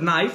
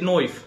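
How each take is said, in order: First: It is said in the speaker's ordinary accent. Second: It is said in an imitated Scottish accent. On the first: "instead of knife" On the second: "they said knife"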